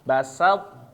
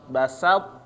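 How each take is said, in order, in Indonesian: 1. Suku kata 'sa' tetap jelas dan tajam. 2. Suku kata 'sa' tetap jelas dan tajam.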